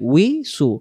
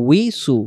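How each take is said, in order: Both takes have the same delivery.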